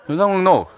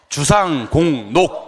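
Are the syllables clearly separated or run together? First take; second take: run together; clearly separated. First: The syllables are slurred and run together. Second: Each syllable is said separately and distinctly. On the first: The speaker calls it wrong. "발음 좀 정확하게 주상공농 이렇게 하지 말고" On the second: The speaker calls it right. "주상공농 이렇게 해주시기 바랍니다"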